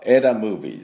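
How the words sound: The first word begins with a short 'eh' vowel. The speaker calls it right. "正しい音は枝ムービーです"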